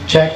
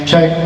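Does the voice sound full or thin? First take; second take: thin; full. First: The voice sounds thin with little bass. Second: The voice sounds full with more bass. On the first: "nagiging manipis yung ating boses dito pag nakababa siya" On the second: "pag tinaas natin"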